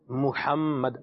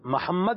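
First: The first syllable has a 'u' vowel. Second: The first syllable has an 'a' vowel. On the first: The speaker calls it right. "محمد میم پر پیش ہے" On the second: The speaker calls it wrong. "یہ لفظ محمد نہیں ہوتا"

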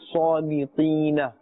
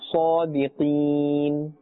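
First: The word ends with a short 'a' vowel. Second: The word ends on a bare final n. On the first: The speaker calls it wrong. "we are not saying صَادِقِينَ" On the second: The speaker calls it right. "give that letter a sakin"

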